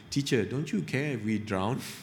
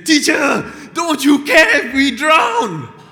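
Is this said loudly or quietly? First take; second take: quietly; loudly. First: The words are said in a quiet, calm voice. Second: The words are said in a loud, shouting voice. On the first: Peter asks gently and politely. "do you imagine a situation where Peter... goes to Jesus and say" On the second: Peter cries out in panic and anger. "Sorry, I'm trying to wake some people up"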